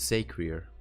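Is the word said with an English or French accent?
English. It is said with an English accent. "the Englishman would say"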